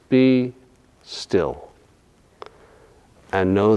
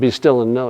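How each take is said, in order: First: There is a pause after "be still". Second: The words run together without a pause. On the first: The speaker calls it right. "there's a natural pause there" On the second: The speaker calls it wrong. "It's not be still and know"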